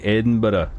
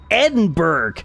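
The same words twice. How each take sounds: First: It is said in a Glasgow accent. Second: It is said in an American accent.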